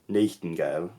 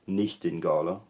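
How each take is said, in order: First: It is said with a 1500s pronunciation. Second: It is said with a 1400s pronunciation. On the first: "fifteen hundreds you had" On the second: "in the fourteen hundreds you had"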